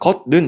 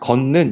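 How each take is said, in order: First: The first syllable ends in a t sound. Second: The first syllable ends in an n sound. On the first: The speaker calls it wrong. "우리가 걷는 이렇게 발음하는 사람 없잖아" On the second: The speaker calls it right. "걷는 이렇게 발음이 되거든. 자 니은으로 발음이 돼"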